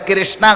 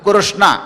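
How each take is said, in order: First: The first syllable is said with an 'i' vowel. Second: The first syllable is said with a 'ru' vowel. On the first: The speaker calls it wrong. "కాగుడిస్తే కీ కీ కింద క్రావిడి గారి కృష్ణ కాదు" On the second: The speaker calls it right. "కకారానికి వడ్రసుడిని ఇవ్వాలి మనం"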